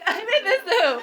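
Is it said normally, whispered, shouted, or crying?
crying. It is said in a crying voice.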